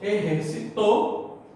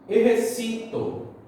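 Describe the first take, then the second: First: The stress is on the final syllable. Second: The stress is on the second-to-last syllable. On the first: Someone exercised in the past. "exercitou é aguda, ou seja, ela é oxítona" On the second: I exercise. "exercito é a nossa grave, ou, em português, paroxítona"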